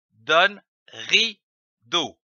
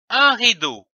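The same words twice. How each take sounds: First: « rideau » lu lentement, syllabe par syllabe; étirez « donne rideau » doucement; lecture lente. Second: Said in the usual way. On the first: Shown as a demonstration. (« ri-deau » détaché, lent) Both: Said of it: "L'association de ces deux syllabes".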